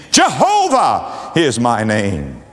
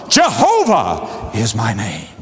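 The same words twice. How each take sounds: First: "Jehovah is my name" said slowly, each word weighted; slow emphatic repeat. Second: A lightly voiced God, lower and solemn. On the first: Shown as a demonstration. Preacher repeats the divine name. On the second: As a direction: declare the name as God speaking to Moses. God declares his name to Moses.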